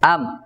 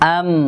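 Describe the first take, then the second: First: The final m is cut short without nasal hum. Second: The final m is held with a nasal hum. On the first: The speaker calls it wrong. "কেউ এরকম বলবো না" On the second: The speaker calls it right. "সঠিক উচ্চারণ করার জন্য আদা আলিফ পরিমাণ ফিতরতি গুন্না করতে হবে।"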